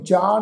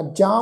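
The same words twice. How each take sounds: First: ਜਾਂ said as jaa, with an oral vowel; without nasalisation. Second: ਜਾਂ said as jaan, vowel through the nose; nasalised vowel. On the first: Teacher showing the reading to avoid, ਜਾਂ without its nasal. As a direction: drop the nasal from ਜਾਂ, plain long aa. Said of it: "ਨਹੀਂ ਉਚਾਰਨ ਕਰਨਾ". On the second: Teacher correcting the reading for the congregation, ਜਾਂ nasalised. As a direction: put the bindi's nasal on ਜਾਂ. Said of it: "ਬਿੰਦੀ ਸਹਿਤ ਨਾਸਕੀ ਉਚਾਰਨ". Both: Shown as a demonstration.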